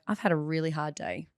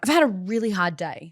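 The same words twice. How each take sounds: First: It is said with a soft, gentle tone. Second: It is said with an angry, harsh tone. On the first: The speaker is sharing vulnerability with the listener. The speaker calls it right. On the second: The speaker is pushing frustration onto the listener. The speaker calls it wrong.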